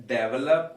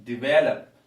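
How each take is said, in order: First: Develop mispronounced, the mistaken way; wrong develop. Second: Develop said "diVELop", loud, stress on the second syllable; correct develop. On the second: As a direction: hit the VEL in Develop. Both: Shown as a demonstration. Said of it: "the correct pronunciation is develop".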